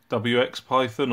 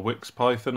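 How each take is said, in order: First: W X said as two separate letters; spelled-out pronunciation. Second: Wix said as a single syllable; one-word pronunciation. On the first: Maker unsure of the software's name, saying W X letter by letter. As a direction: spell out W X before Python. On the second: Maker unsure of the software's name, saying Wix as one word. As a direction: run the letters together as Wix. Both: Real, not acted. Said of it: "I'm not sure of the pronunciation".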